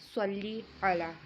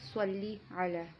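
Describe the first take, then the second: No difference in how they are said.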